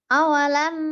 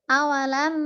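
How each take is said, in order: No difference in how they are said.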